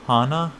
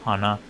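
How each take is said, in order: First: Raised, rising "hana" as in flower; Japanese pitch accent. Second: "hana" kept low and level, meaning nose; low-pitched "hana" as in nose; Japanese pitch accent. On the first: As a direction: lift the pitch through "hana". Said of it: "sería, eh, flor". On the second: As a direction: say "hana" low, without a rise. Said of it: "Hana sería nariz". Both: Shown as a demonstration.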